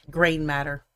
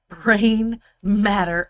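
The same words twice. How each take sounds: First: Said in the usual way. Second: "brain matter" slowly, word by word, louder; careful, drawn-out "brain matter"; deliberate correction. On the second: Real, not acted. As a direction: enunciate "brain" and "matter" separately, slow and emphatic. Deliberate correction after the stumble.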